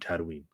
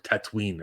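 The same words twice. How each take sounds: First: The word is said in the ordinary way. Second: The word is said in an imitated, distinctive way.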